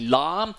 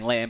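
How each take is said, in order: First: The name has a Vietnamese-sounding pronunciation. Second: The name is read like English spelling. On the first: The speaker calls it right. "but it's actually Lam" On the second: The speaker calls it wrong. "spelled L A M, so a lot of people are saying Lam"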